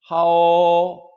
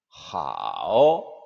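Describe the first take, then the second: First: The pitch stays high and level. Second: The pitch dips low then rises.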